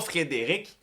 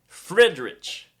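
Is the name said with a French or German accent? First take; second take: French; German. First: The name is said with a French accent. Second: The name is said with a German accent.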